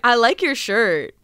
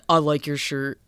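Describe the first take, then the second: First: It is said with lively enthusiasm. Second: It is said flatly, without enthusiasm.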